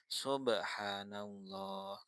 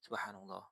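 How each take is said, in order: First: It is said slowly and drawn out. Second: It is said quickly and briefly.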